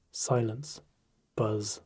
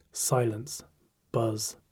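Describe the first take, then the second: No difference in how they are said.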